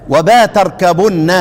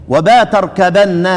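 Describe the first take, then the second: No difference in how they are said.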